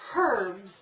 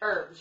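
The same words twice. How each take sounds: First: The word starts with an audible H sound. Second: The word starts with a vowel, no H sound.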